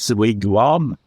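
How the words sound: The word is said the American way. "in the States uh, I think uh, the proper uh, pronunciation is wigwam"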